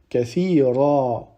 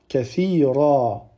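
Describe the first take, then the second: Both takes have the same delivery.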